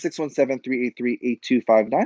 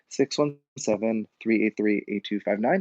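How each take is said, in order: First: The number is said at a quicker pace. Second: The number is said at a slower pace.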